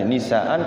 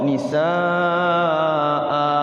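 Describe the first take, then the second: First: The word ends with an n sound. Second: The word ends with a long a vowel. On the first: The word runs on without a stop. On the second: The word is read at a stop.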